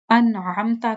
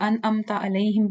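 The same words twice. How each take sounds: First: First "انعمتا" as an'amta, throaty ain; correct ain. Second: "انعمتا علیہم" as anamta alaihim, no ain; plain vowels in "انعمتا علیہم"; common mistake. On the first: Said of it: "ہم لوگ انعمتا علیہم پڑھتے ہیں". ("انعمتا" حلق والے عین سے) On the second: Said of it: "یہ بھی مسٹیک ہے". ("انعمتا علیہم" عین کے بغیر) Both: Shown as a demonstration.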